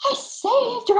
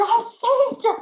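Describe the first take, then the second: First: Much higher, louder voice of joy; imitating a thrilled husband crying out, high and loud; excited. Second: Thrilled and high, louder again; imitating a husband repeating his joy, high and loud; excited. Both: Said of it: "He was so excited".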